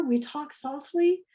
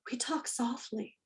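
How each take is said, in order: First: Soft spoken. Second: A soft unvoiced whisper. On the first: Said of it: "lower their voice and talk softly". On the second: Teacher whispering the rule to a noisy class. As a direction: breathe it to calm the room. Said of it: "You could even whisper it". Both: Shown as a demonstration.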